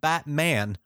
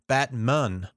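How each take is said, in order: First: The second syllable has a full 'man' vowel. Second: The second syllable has a reduced 'mun' vowel.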